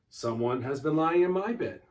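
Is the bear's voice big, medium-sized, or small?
medium-sized. It is said in a medium-sized bear's voice.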